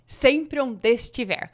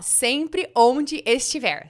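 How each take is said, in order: First: The words run together with linked sounds. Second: Each word is said separately and fully. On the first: "Sabe como a gente pronuncia isso" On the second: "tinha a frase assim"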